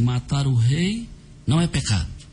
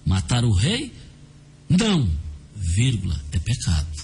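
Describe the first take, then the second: First: It is said without pauses. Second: There are pauses around 'não'.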